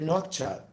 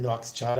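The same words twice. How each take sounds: First: "Nouakchott" as "nok-chot", without any s; corrected pronunciation. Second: "Nouakchott" with an extra s, "noks-chot"; mistaken pronunciation. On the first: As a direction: go straight from k to "ch" in "Nouakchott". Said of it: "No, I don't think I said". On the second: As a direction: slip an s before the "ch" in "Nouakchott". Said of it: "I said Nouakchott". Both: Shown as a demonstration.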